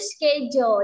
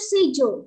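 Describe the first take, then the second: First: It is said with a k sound. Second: It is said without a k sound. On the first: "schedule yang kita tahu" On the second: "orang Inggris bacanya itu sejo, gak ada ke-nya ya"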